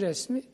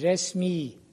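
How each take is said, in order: First: The final vowel is short. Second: The final vowel is long. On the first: It means someone's picture. "Ahmet'in resmi" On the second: It means official. "resmiyete ait demek mi?"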